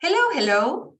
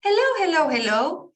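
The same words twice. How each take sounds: First: Hello hello with a rising question tune, higher and louder; hello as a question again. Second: Hello hello hello with a rising question tune, first one high and loud; Spanish question tune on hello. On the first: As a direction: ask with hello hello. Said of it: "for example". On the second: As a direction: ask a question using only hello, hello, hello. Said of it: "I'm gonna make a question only using the word hello". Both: Shown as a demonstration.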